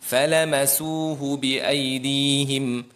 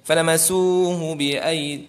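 First: The phrase is recited steadily, every syllable given full length. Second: The phrase is rushed, with syllables clipped short. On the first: The speaker calls it right. "Jadi caranya" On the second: The speaker calls it wrong. "Jangan ... Ha cepat tu, tak sah dah"

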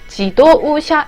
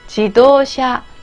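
First: The o and u are said as separate sounds. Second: The o and u merge into one long vowel. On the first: The speaker calls it wrong. "이거 지도우샤 이렇게 안 해요" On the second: The speaker calls it right. "도랑 우를 합쳐서 길게 발음해요"

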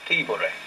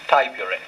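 First: The first syllable sounds like 'tee'. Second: The first syllable sounds like 'tie'. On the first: This is how the Romans said it. The speaker calls it right. "the first syllable of that word, T, is exactly what it was in Latin" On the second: This is the old English way of saying it. The speaker calls it wrong. "In the old-fashioned English pronunciation, it was called"

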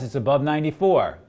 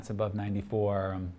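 First: It is said in an urgent, excited way. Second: It is said in a calm, offhand way. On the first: The level matters and calls for attention. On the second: The level is noted but not urgent.

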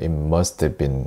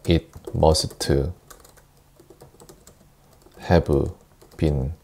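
First: The words run together with reduced sounds. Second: Each word is pronounced separately and fully. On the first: The speaker calls it right. "연음해서" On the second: The speaker calls it wrong. "이렇게 읽는 게 아니라"

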